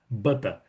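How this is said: It is said in a central British accent. "na área mais centro fica butter"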